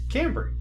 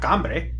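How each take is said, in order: First: The name is pronounced the English way. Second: The name is pronounced the Spanish way. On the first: This sounds American. The speaker calls it right. "I pronounce my name Cambry" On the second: The speaker calls it wrong. "not Gambre"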